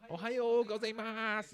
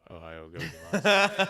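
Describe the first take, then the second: First: It is said in a cute greeting voice. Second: It is said plainly without that voice.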